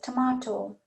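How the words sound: It is said with an Indian English accent. This is how the shop lady says it. "So she says tomato"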